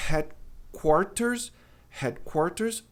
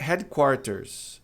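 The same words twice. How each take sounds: First: Headquarters with breathy H, first slow; aspirated H. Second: Headquarters with the H as ré; wrong pronunciation. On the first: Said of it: "vai ser". (headquarters com H aspirado, devagar) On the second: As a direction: say headquarters with a Portuguese R start. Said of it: "A pronúncia errada é". (headquarters começando com ré) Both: Shown as a demonstration.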